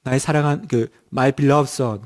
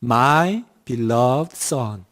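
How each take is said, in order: First: "my beloved son" read slowly, haltingly, stress on "beloved"; hesitant child's reading. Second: "My beloved son" read very slowly, each word drawn out, falling; slow, careful reading of "My beloved son"; slow English reading. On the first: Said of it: "아, 근데 이렇게". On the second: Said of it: "예문이 이렇게 나왔어요". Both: Shown as a demonstration.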